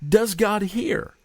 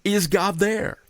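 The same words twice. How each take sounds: First: "Does God hear?" high and drawn out slowly; slow plea. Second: "Is God there?" lifted high as a question; rising plea. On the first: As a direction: ask it as a doubting people, slowly. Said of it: "They asked". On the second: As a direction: voice the people's doubt lightly. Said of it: "the Israelites were asking". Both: Retold or imitated.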